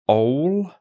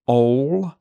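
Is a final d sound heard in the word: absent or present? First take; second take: absent; absent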